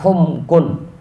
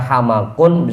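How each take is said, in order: First: The first vowel is 'u' and the middle consonant is vowelless. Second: Both vowels are 'a', with no silent middle consonant. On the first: "dengan domah lalu sukun" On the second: "dengan dua fathah"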